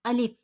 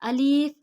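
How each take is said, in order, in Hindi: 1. शब्द छोटा बोला जाता है, खींचा नहीं जाता। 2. शब्द को खींचकर लंबा बोला जाता है। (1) "बल्कि हम इस तरह अदा करेंगे" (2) "इसे हमने खींच के नहीं पढ़ना, अलिफ नहीं करेंगे हम"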